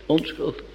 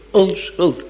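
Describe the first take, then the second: First: Onschuldig dropped to almost nothing; fading repeat. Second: Onschuldig stressed with a falling close. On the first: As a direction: let onschuldig die away softly. (onschuldig zacht wegstervend) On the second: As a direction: press onschuldig firmly and let it fall. (onschuldig met nadruk en dalende toon) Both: Acted. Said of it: "ik verklaar hem onschuldig".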